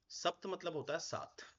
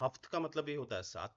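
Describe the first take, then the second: First: सप्त said slowly with a clear s at the start; teacher spelling out सप्त with its s sound; Sanskrit s sound. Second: हफ्त said with an h where Sanskrit has s; teacher contrasting हफ्त with सप्त; Persian h sound. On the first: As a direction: pronounce सप्त with a crisp s, slowly. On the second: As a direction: start हफ्त with a clear breathy h. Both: Shown as a demonstration. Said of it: "तो सप्त और हफ्त देखो".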